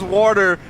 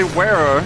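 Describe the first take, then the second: First: Said in the usual way. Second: "wearer" for water, the T left out; T-less water. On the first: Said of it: "like, when someone says water". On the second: Retold or imitated. Streamer reading chat's UK way of saying water, T left out of "wearer". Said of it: "Leave out the T in water".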